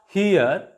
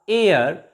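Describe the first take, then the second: First: The word begins with an H sound. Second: The word begins with a vowel sound. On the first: The speaker calls it wrong. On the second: The speaker calls it right. "H is also silent here"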